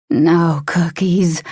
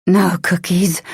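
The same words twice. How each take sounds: First: Slow predatory menace; menacing, slow. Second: Said in the usual way. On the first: A narrator's reading. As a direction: drawl it like a hungry predator. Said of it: "ravenous growl".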